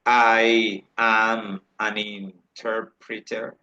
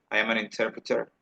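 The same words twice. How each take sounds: First: Drawn-out, syllable-by-syllable demonstration; slow model sentence. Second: Quicker, softer connected delivery; natural-speed repeat. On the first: Teacher models "an" before a vowel for students, very slowly. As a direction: break it up very slowly for learners. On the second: Teacher repeats the sentence for students at natural speed, quick and connected. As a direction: run the words together briskly. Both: Shown as a demonstration.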